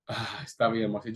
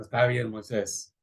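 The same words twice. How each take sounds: First: Said in the usual way. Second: A weary, sighing give-in; sighing resignation. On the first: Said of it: "Y Dios le dijo". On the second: Retold or imitated. God sighing as he gives in to Moses. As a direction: let it out on a tired breath. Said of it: "Dios sí respiró".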